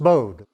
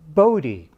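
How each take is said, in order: First: It has a long O and a silent final E. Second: The final E is pronounced as a syllable. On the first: The speaker calls it wrong. "a long O, a silent E" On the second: The speaker calls it right. "they called him Bode"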